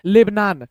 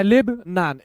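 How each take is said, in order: First: Said in the usual way. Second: लेब नान with a clear pause after लेब; split in two. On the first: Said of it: "speed में कैसे पढ़ेंगे". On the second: Shown as a demonstration. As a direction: break लेब नान into two separate words. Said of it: "अब ये नहीं पढ़ना है".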